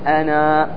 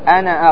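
First: The word ends in a long vowel. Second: The word ends in a short vowel. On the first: The reader stops on this word. "لما تقف تقول أنا، واضح بالألف" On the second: The word is joined to the next word. "بنون مفتوحة بدون ألف"

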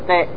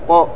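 First: The bounce after the consonant sounds like 'i'. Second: The bounce after the consonant sounds like 'u'. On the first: The speaker calls it wrong. "ما أقول قي" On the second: The speaker calls it right. "لأن الميم مضمومة"

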